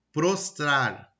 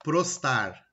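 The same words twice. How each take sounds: First: Said in the usual way. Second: "prostar" for prostrar, second r missing; "prostar", the second r dropped; dropped-sound mispronunciation. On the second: Shown as a demonstration. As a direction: say "prostar" with no r after the t. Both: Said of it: "omitir fonemas".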